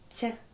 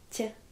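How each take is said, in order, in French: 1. Le t est mou, palatalisé avec un y glissé. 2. Le t est mou, palatalisé avec un y glissé.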